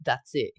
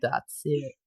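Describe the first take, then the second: First: Put-on hero's line in an Australian accent; Aussie accent. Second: Tentative American guy voice; American accent. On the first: Reader restarts hero's line as told, Aussie accent. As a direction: play the guy in your own Aussie voice. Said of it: "stick to your Aussie accent". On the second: Acted. Reader unsure of doing a guy, attempted American accent. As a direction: have a go at an American hero. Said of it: "do a guy in American voice".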